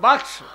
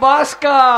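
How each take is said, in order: First: The 'k' sound comes before the 's' sound. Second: The 's' sound comes before the 'k' sound. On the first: The speaker calls it right. "একটা বাক্স দিয়েছিল" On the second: The speaker calls it wrong. "এই বাক বাসকা কোথা থেকে এলো?"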